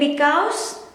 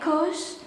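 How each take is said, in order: First: The word is said with both syllables. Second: The word is said without its first syllable. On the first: This is the full standard form. "dari because" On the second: This is the casual slang form. "versi slangnya cause"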